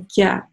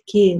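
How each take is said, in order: First: The vowel after k is fronted toward ya. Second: The vowel after k glides toward ey. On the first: "не нужно говорить специально «кя», то есть это склонение «алиф» к букве «я»" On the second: "многие пытаются делать ее чрезмерно мягкой, опять за счет как бы, передвижения ее ближе к «я»"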